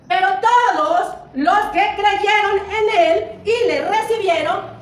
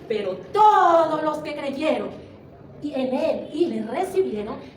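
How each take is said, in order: First: It is said loudly. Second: It is said at medium volume.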